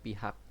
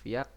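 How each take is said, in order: First: The word begins with a 'p' sound. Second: The word begins with a 'v' sound. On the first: The speaker calls it right. "yang benar adalah pihak" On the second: The speaker calls it wrong. "Pak Prabowo bilang Viak"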